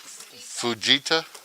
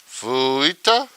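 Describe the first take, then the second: First: The J sound is clearly pronounced. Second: The J sound is left out. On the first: The speaker calls it right. "J's not silent there?" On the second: The speaker calls it wrong. "is the J silent?"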